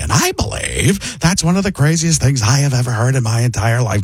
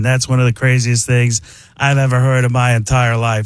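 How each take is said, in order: First: Brought-down, emphatic actor impression; Paul Giamatti. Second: Airy aw-shucks actor impression; Mark Ruffalo. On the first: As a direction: settle the voice down and declare it. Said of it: "and it becomes Paul Giamatti". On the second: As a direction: modest genius with air in the voice. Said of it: "it's Mark Ruffalo". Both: Shown as a demonstration.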